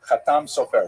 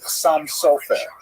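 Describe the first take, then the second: First: Sephardi style, with the stress on the last syllables. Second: Ashkenazi style, with the stress on the first syllables.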